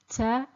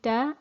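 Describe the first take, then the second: First: The t sound is released with running air. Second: The t sound is blocked, without escaping air. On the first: The speaker calls it wrong. "not ta, tu, ti" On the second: The speaker calls it right. "The sound should be restricted, it's blocked"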